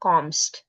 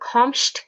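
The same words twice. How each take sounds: First: The ending is pronounced with a plain 'st' sound. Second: The ending is pronounced with an 'sht' sound. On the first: The speaker calls it right. "होगा" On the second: The speaker calls it wrong. "के बजाय"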